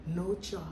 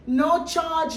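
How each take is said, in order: First: Said in the usual way. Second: "No charge" called out high and loud; emphatic. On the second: Retold or imitated. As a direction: lift "No charge" high with feeling. Mother stresses no charge.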